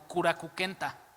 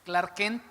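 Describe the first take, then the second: First: Vowels are inserted between the consonants. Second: The consonant clusters are kept without added vowels. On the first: "ellos lo pronuncian como Kurakukenta" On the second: "No es Clark Kent"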